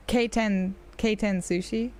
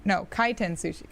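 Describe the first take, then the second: First: K ten said halting, unsure, like the letter K; groping for the word K ten Sushi; fumbled word. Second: Kaiten said carefully, KAI-ten, stress on the first syllable; correcting herself. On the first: Streamer searching for the word, trying K ten hesitantly. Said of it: "forgetting the word for it". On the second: Streamer fixing her own word to chat: Kaiten said carefully. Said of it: "I was, like, forgetting the word for it". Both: Shown as a demonstration.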